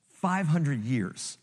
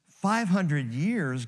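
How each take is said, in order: First: "five hundred years" said slowly, each word weighted; slow stress on five hundred years. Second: "Five hundred years" drawn out slowly, each word weighted; slow down and lean on "Five hundred years"; slow stress on five hundred years. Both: Shown as a demonstration.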